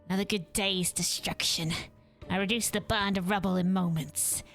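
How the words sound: It is read in the Vandal's character voice.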